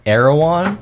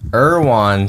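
First: The name is said without a southern twang. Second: The name is said with a southern twang. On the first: The speaker calls it right. "I've been told and heard that it's Erwan" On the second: The speaker calls it wrong. "seems like maybe if you had like a southern twang to it"

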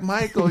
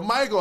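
First: The name is said in a sexy tone. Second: The name is said in a demanding tone.

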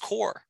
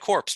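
First: The word ends without p or s sounds. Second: The word ends with audible p and s sounds. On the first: The speaker calls it right. "That's core" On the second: The speaker calls it wrong. "Like it's a dead body"

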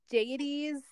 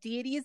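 First: The first syllable sounds like 'day'. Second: The first syllable sounds like 'dee'. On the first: This form follows the Latin word for God. "Deities is because the Latin word for God is Dei" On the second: This form is the common American one. "Deities is very common in America"

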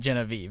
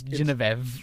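First: The name is said as an English reading. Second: The name is said in a foreign way. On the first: The speaker calls it wrong. "Genevieve is not Genevieve" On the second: The speaker calls it right. "It's Genevieve or something"

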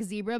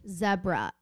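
First: It is said in an American accent. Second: It is said in a British accent. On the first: "like zebra" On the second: "but with a British accent"

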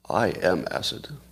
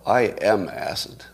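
First: It is said with dramatic, theatrical energy. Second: It is said in a plain, low-key way. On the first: "Let me try that again" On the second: "I feel like I should say that with more theatrical flair"

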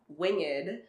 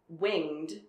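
First: The word is said as two syllables. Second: The word is said as one syllable. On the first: The speaker calls it wrong. "not winged, as I say probably about 5 times before I catch myself" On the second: The speaker calls it right. "the word is winged"

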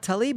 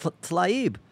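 First: A full vowel separates the T and the L. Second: The T and the L run together without a vowel. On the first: The speaker calls it wrong. "it's not Talib" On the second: The speaker calls it right. "it's Tlaib"

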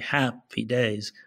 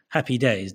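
First: The first syllable 'hap' is drawn out long. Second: The first syllable 'hap' is short. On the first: "unless you're trying to be, you know, trying to sort of stress it" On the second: "most of us would say it actually sounds short"

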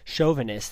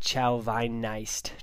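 First: The word is said in its usual pronunciation. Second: The word is sounded out the way it's spelled. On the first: The speaker calls it right. "is how you say it" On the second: The speaker calls it wrong. "looks like Chauvinist"

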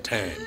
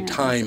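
First: The word is pronounced in a street accent. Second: The word is pronounced in a standard accent. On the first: This is the speaker's habitual form. "I say time" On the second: This is the form the speaker does not normally use. "I don't say time"

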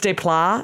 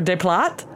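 First: The final T sound is silent. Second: The final T sound is pronounced. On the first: The speaker calls it right. "But maybe it's [name]" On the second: The speaker calls it wrong. "I shouldn't have pronounced that T"

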